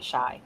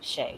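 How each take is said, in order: First: The vowel sounds like the one in 'sky'. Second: The vowel sounds like the one in 'day'. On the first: The speaker calls it right. "I meant to say M-Shy" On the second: The speaker calls it wrong. "I mispronounced it earlier. I meant to say M-Shy, not Shay"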